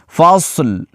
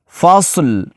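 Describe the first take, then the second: Both takes have the same delivery.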